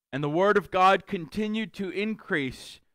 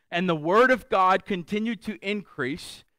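Both takes have the same delivery.

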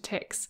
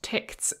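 First: The word is pronounced the English way. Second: The word is pronounced the German way. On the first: The speaker calls it wrong. "as opposed to TikZ" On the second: The speaker calls it right. "I believe it is pronounced TikZ"

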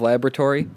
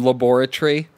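First: It is said with a non-British pronunciation. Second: It is said with a British pronunciation. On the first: "instead of laboratory" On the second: "that's just the British pronunciation"

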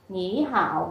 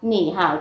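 First: The first syllable has a rising tone. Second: The first syllable has a low dipping tone. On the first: "chúng ta sẽ đọc là nỉ hảo" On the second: "Hoặc là nỉ hảo"

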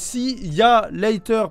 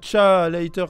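First: See and ya are two separate syllables. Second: See and ya merge into one syllable, cha. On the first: The speaker calls it right. "C'est see ya later" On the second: The speaker calls it wrong. "pas cha later comme ça"

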